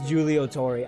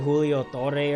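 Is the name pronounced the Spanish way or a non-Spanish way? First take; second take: non-Spanish; Spanish. First: The name is given a non-Spanish pronunciation. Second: The name is given a Spanish pronunciation. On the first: The speaker calls it right. "I think it's Julio Torre" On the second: The speaker calls it wrong. "at first I thought it was like a name, a Spanish name"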